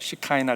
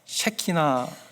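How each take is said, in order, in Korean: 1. 영어식 shi-KAI-na처럼 들립니다. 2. 한국식 she-ki-na처럼 들립니다. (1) "시카이나 글로리라고 들어보셨어요" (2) "한국말로는요 셰키나, 발음을 잘해야 됩니다"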